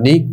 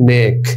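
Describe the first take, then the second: First: The vowel is a long ee sound. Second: The vowel is an e sound. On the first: The speaker calls it wrong. "মারুফ সেটা যদি হতো তাহলে আমরা নিক বলতাম না নিক না" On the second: The speaker calls it right. "কথাটা হচ্ছে নেক"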